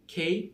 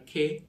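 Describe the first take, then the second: First: খেই pitched higher, with a full "ei" glide; British-style letter K. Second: খে without the closing glide; England-style letter K. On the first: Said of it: "একটা British উচ্চারণ". (British উচ্চারণে খেই) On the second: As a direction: say খে short, the England way. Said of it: "England উচ্চারণ". (ইংল্যান্ডের উচ্চারণে খে) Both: Shown as a demonstration.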